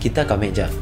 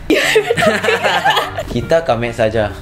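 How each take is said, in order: First: The last word is said in a shortened form. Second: The last word is said in its full form. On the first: The speaker calls it right. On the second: The speaker calls it wrong.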